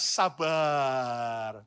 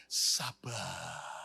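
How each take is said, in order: First: Louder. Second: Said in the usual way. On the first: Shown as a demonstration. Pastor urges congregation, answer louder. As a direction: say "Sabar." firmly, a bit louder. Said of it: "Ya, ayo lebih keras".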